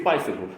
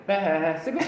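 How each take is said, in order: First: Said in the usual way. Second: "bicycle" with the first syllable drawn out like a bleat; overlong pronunciation. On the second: Retold or imitated. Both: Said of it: "ain't that goddamn long".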